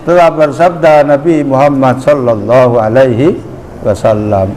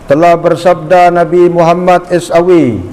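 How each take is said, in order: First: The blessing is spoken as the full phrase. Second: The blessing is spoken as three letters. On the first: The speaker calls it right. "baca langsung" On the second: The speaker calls it wrong. "jangan S A W"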